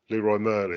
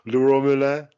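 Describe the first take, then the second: First: Leroy Merlin said the English way; "Leroy Merlin" read as plain English words, not French; wrong pronunciation. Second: Leroy Merlin said in French, higher and louder; "Leroy Merlin" with a French accent, after a laugh; French pronunciation. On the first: Admitting he can't say a French shop name, English pronunciation. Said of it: "I'm gonna pronounce it wrong". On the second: Correcting his own English attempt, exaggerated French pronunciation. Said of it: "That's not how you pronounce it". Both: Shown as a demonstration.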